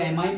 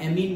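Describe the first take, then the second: First: The second vowel sounds like 'eye'. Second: The second vowel sounds like 'ee'. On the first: "इसको एमाइन बोलो" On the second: "या एमीन बोलो, दोनों pronunciation होते हैं"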